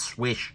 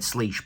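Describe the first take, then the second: First: The name is said like 'swish'. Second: The name is said like 'sleesh'. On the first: The speaker calls it right. "but apparently it's Swish" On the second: The speaker calls it wrong. "I've always said Sleesh"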